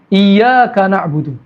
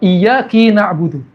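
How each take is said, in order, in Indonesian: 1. Kata pertama diakhiri dengan vokal 'a'. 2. Kata pertama diakhiri dengan vokal 'i'.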